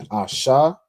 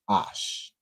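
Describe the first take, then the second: First: The syllable ends with a vowel after sh. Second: The syllable ends on the sh sound. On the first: The speaker calls it wrong. "instead of being Asha" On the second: The speaker calls it right. "the A drops off"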